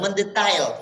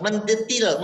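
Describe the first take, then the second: First: "mendetail" with the English "tail" sound; corrected "mendetail". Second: "mendetil" said with a short i, no ai; wrong "mendetil". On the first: Preacher correcting himself to "mendetail" with the English ai. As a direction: land the fix as "mendetail". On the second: Preacher repeating the wrong form "mendetil" with a short i. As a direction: mispronounce it as "mendetil". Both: Shown as a demonstration.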